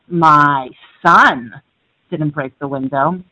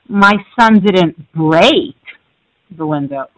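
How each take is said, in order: First: The word "son" carries the stress. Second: The word "break" carries the stress. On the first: A different child in the family broke it. "My daughter did" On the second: The window was damaged but not broken. "he just cracked it"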